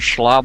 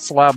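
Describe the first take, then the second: First: The word starts with a sh sound. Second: The word starts with a plain s sound. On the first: The speaker calls it right. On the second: The speaker calls it wrong. "not Slab Lord"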